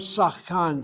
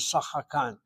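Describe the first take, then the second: First: The word has two syllables, with no middle vowel. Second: The word has three syllables, with a middle vowel. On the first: "that word Sachkan sometimes is pronounced" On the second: "the Shvanachanitachet is opened up, so it's pronounced as Sachakan"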